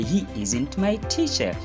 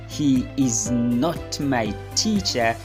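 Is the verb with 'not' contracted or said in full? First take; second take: contracted; full. First: The verb and not are joined together. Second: The verb and not are said separately. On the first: "you simply say" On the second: "Instead of saying"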